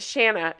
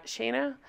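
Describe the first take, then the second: First: "Shanna" with a short a as in "man"; short-a pronunciation. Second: "Shanna" said as SHAY-nuh, softly; long-a pronunciation. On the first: Host unsure of the name tries "Shanna" with a short a. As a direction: say "Shanna" to rhyme with Hannah. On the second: Host trying the name another way, "Shanna" softly as SHAY-nuh. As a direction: say "Shanna" with a long a, questioning rise. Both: Shown as a demonstration. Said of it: "oh, what, Shanna".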